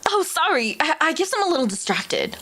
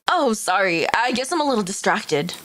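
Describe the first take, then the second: First: It is said in a normal voice. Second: It is said in a deeper voice.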